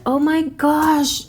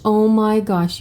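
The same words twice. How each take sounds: First: High, drawn-out amazement; delighted gasp. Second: Said in the usual way. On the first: Real, not acted. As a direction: stretch it out, thrilled. Reacting to the drawn card.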